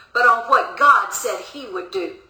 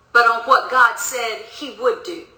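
The two takes are said the same way.

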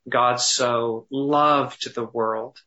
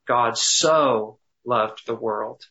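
First: The stress is on the word loved. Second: The stress is on the word so.

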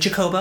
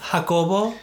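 First: The name is said the English way. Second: The name is said the Spanish way. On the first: The speaker calls it wrong. "they'll be like Jacobo. They say the ja like it's a G-A" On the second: The speaker calls it right. "Because it's Jacobo"

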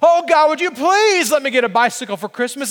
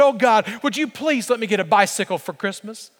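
First: It is said more loudly. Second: It is said more quietly.

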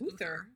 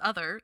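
First: The first vowel does not rhyme with brother. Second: The first vowel rhymes with brother. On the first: "how else would you say that? I guess Uther" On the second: "Did you say it that way so that it would rhyme?"

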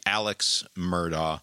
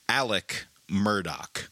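First: The name is said as it reads on the page. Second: The name is said differently from its spelling. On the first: This is how an ordinary reader would say it. "the normal English pronunciation of it would be" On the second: This is how the family says their own name. "His family pronounces it"

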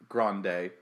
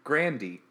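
First: The name does not end in an "ee" sound. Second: The name ends in an "ee" sound. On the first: The speaker calls it wrong. "It's not pronounced Grande" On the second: The speaker calls it right. "Apparently, it's Grandy"

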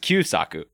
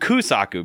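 First: The first syllable is said as 'kyu'. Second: The first syllable is said as 'ku'. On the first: The speaker calls it right. "his dad's name is Kyusaku" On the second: The speaker calls it wrong. "they call him Kusaku"

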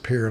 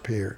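First: The name is said the way locals say it. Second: The name is said the way it is spelled. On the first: This is how the people there say it. The speaker calls it right. "they pronounce it Pierre" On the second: This follows the spelling rather than local use. The speaker calls it wrong. "not Pierre. I say it all the time because it's spelled Pierre"

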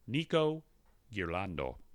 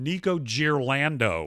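First: The name has a slight foreign-sounding accent. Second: The name has a broad American accent.

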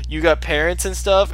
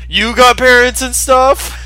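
First: The question is asked in a calm voice. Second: The question is yelled loudly. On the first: A casual, friendly question. "I really like when Jane was like" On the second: He is offended by the question. "And then Johnny yells"

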